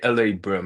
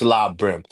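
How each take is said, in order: First: The first part is spoken as two separate letters. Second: The first part is spoken as one single syllable. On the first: The speaker calls it wrong. "you say L A Brim" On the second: The speaker calls it right. "It's La Brim"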